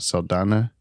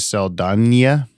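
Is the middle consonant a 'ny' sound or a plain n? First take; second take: plain n; ny. First: The middle consonant is a plain n. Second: The middle consonant is a 'ny' sound. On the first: The speaker calls it wrong. "and not Saldana" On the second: The speaker calls it right. "it's uh, Zoe Saldana"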